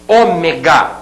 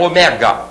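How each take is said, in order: First: The stress is on the third-to-last syllable. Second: The stress is not on the third-to-last syllable. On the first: The speaker calls it right. "Ômega, proparoxítona" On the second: The speaker calls it wrong. "e não"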